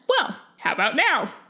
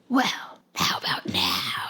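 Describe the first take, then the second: First: It is said in a plain, normal voice. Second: It is said in a creepy, eerie voice.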